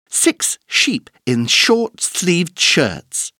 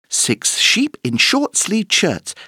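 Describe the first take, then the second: First: It is said fast. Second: It is said even faster.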